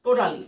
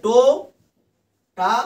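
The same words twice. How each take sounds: First: Said in the usual way. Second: টো-টা-লি very slow, each syllable alone with long pauses; split in syllables. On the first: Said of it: "টোটালিতে দেখো তিনটে মাত্র syllable". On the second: Shown as a demonstration. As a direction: say টো, টা, লি as three loud separate beats. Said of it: "তিনটি মাত্র syllable বলতে দেখো". (টো-টা-লি তিন ভাগে থেমে থেমে বলা)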